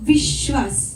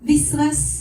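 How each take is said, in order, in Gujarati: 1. વચ્ચેનો વ્યંજન 'sh' અવાજ છે. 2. વચ્ચેનો વ્યંજન 's' અવાજ છે. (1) "શકોરાનો શ કે શરબતનો શ એ બોલાવવો જોઈએ" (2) "નહીં આવશે"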